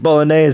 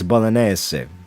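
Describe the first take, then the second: First: It is said plainly, with English sounds. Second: It is said with a musical Italian lilt.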